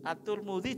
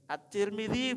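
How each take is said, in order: First: The name is said with u vowels. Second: The name is said with i vowels. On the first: "At-Turmudi juga boleh itu" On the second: "At-Tirmidzi boleh"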